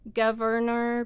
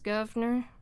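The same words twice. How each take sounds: First: All the sounds of the word are pronounced. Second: One sound of the word is left out.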